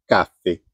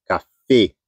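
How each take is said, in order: First: "café" said as CA-fe, falling away; "café" as if written without its accent; stress on first syllable. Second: "café" said as ca-FÉ; "café" with its written accent honoured; stress on last syllable. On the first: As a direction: put the weight on the "ca" of "café". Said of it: "Se você tirar o acento". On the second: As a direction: put the weight on the final "fé" of "café". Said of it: "Colocou acento". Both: Shown as a demonstration.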